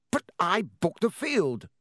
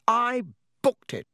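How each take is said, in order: First: Higher, slow, furious insistence; spitting with rage. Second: I punched much higher and louder; stress on I. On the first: Wood furious at Flint, slow and higher. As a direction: bite out each word in rage. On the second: Wood insisting to Flint, I stressed loud and high. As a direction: hammer the word I in fury. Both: A narrator's reading. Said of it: "positively spitting with rage".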